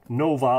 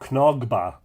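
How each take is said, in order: First: The name has no guttural throat sound. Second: The name has a guttural throat sound.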